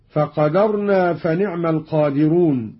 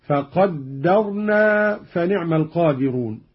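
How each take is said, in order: First: "فقدرنا" as "faqadarna", light d; single dal. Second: "فقدرنا" as "faqaddarna", held d; slow recitation leaning on the dd in "فقدرنا"; doubled dal. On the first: Teacher reads the verse before the variant, "فقدرنا" as faqadarna. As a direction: recite "فقدرنا" with an undoubled d. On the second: Teacher demonstrates Qalun's reading, "فقدرنا" with doubled d. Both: Shown as a demonstration. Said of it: "قرأ قالون بتشديد الدال".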